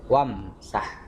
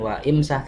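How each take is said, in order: First: Wa runs straight into msah without the i. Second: The vowel i is kept after a separate wa. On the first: The speaker calls it right. "kalau disambung wamsah" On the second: The speaker calls it wrong. "bukan wa imsah"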